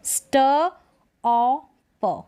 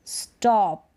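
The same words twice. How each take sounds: First: स्ट, औ, प as three separate sounds; sounded out. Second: स्टॉप in one piece with open "aw"; स्टॉप said whole, falling at the end; blended word. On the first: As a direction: pause between स्ट, औ and प. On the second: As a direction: join the sounds into स्टॉप. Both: Shown as a demonstration. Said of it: "औ sound आ रहा है".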